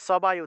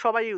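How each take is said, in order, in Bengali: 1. শব্দটি 's' ধ্বনি দিয়ে শুরু হয়। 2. শব্দটি 'sh' ধ্বনি দিয়ে শুরু হয়। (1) "সবাই উচ্চারণ হওয়ার কথা ছিল" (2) "এখানে কিন্তু সবাই উচ্চারণ করি, এটা কিন্তু আমাদের অভ্যাস হয়ে গেছে"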